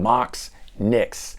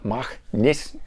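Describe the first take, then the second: First: The name is said with an American pronunciation. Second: The name is said with a German pronunciation.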